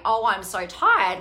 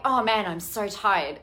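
First: Slow, drawn-out tired sigh of a voice; weary inner voice. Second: Said in the usual way. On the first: Retold or imitated. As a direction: let the inner voice drag, worn out. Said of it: "it sounded like the voice was saying". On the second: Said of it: "I was like".

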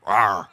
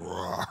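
First: Playful lion roar. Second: Soft lion roar. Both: Retold or imitated. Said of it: "like the Wizard of Oz lion".

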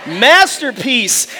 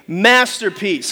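First: "masterpiece" very drawn out, firmer; rally the crowd on a long, full-voiced "masterpiece"; stretched, emphatic "masterpiece"; insistent recitation. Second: "masterpiece" low and drawn out; slow "masterpiece" for all to join; leading a recitation. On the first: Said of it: "Come on, say it with me". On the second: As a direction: prompt the crowd with a slow, lower "masterpiece". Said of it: "say it with me". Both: Shown as a demonstration.

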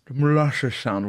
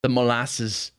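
First: Slurred Southern "molasses"; mushy drawled Southern accent. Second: Said in the usual way. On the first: Shown as a demonstration. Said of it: "are you the drawl South".

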